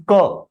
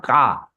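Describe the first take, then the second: First: Ka said with a short "uh", like "kuh"; correct short vowel. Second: Ka said with a long open "aah"; wrong long vowel. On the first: Teacher corrects the reading for students, Ka as short "kuh". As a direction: keep the vowel of Ka short and neutral. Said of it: "It is not Ka". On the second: Teacher warns students off the wrong reading, Ka as long "kaa". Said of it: "It is Ka". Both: Shown as a demonstration.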